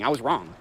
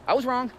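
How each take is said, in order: First: Said in the usual way. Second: Second "I was wrong" jumps up, stressing was; higher emphatic repeat. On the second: Real, not acted. To chat, repeating his regret with a sudden high emphatic jump.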